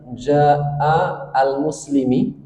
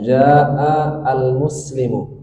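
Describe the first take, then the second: First: The last word ends with an i vowel. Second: The last word ends with a u vowel. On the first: The speaker calls it wrong. "tidak akan bisa dibaca jaa al-muslimi kasroh" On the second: The speaker calls it right. "Kita baca jaa al-muslimu"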